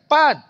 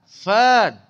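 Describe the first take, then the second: First: The word begins with a p sound. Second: The word begins with an f sound. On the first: This is how Malay speakers say it. The speaker calls it wrong. "Pan tu orang Melayu lah" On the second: This is the Arabic way of saying it. The speaker calls it right.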